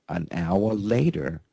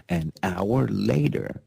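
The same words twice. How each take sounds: The two takes are said the same way.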